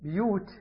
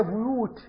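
First: بيوت as "biyut", i after b; kasra on the ba. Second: بيوت as "buyut", u after b; damma on the ba. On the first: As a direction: say بيوت with a short i in its first syllable. (بيوت بكسر الباء) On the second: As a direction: say بيوت with a short u in its first syllable. (بيوت بضم الباء) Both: Retold or imitated. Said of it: "بكسر الباء".

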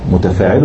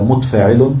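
First: "متفاعل" as mu-ta-faa-i-lun, with a short a after ta; voweled ta. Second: "متفاعل" as mut-faa-i-lun, no vowel after ta; vowelless ta. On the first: Teacher quizzing students on the metrical foot, "متفاعل" with voweled ta. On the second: Teacher offering the other metrical foot, "متفاعل" with vowelless ta. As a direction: close the first syllable of "متفاعل" on t. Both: Shown as a demonstration. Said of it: "متفاعل ولا متفاعل؟".

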